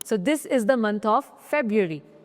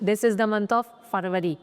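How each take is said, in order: First: The month is said as 'feb-roo-ary'. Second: The month is said as 'far-va-ree'. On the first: The speaker calls it right. "So this is फेब्रुअरी" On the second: The speaker calls it wrong. "ना कि"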